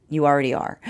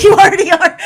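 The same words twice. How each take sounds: First: A hint of a calm inner voice, lightly voiced; higher self voice. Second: High, loud laughing through the words; laughing delivery. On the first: Reader voices the higher self answering, lightly done. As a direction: answer gently as the wise higher self, understated. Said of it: "I can hear the higher self saying". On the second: Shown as a demonstration. Reader shows how the higher self says it, laughing. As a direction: laugh it out, delighted, much higher. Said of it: "Like that, just like that".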